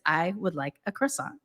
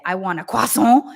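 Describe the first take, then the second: First: Put-on plain American-accented "croissant". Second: Put-on French pronunciation of croissant; fake French accent. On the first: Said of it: "with my American accent". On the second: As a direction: imitate a faux-French "croissant". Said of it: "fake version of a French accent".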